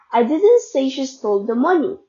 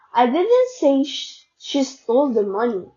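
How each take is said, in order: First: The stress falls on the word money. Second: The stress falls on the word didn't. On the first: Something else was stolen. "meaning she stole something else" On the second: It was never said at all. "I never said it at all"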